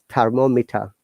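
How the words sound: British accent, final R silent, clear T. "it becomes thermometer in British"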